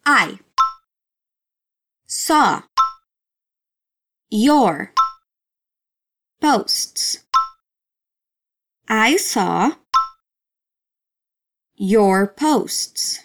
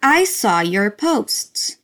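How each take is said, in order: First: Each word split off by a long pause; slow word-by-word teaching drill. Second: The full phrase joined up but slowed right down; slow joined-up model phrase; slow whole phrase. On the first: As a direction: say it one slow word at a time for the class. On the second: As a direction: put the words back together slowly. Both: Shown as a demonstration.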